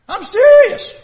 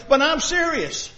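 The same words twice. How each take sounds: First: Sudden high, loud cry of insistence; God raising his voice at Adam; emphatic outburst. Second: Slower, settled, dead-serious; calm earnest reminder; slow earnest insistence. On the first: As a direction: burst out so he can't ignore you. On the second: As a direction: lay it down slowly and firmly. God insisting to Adam. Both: Acted.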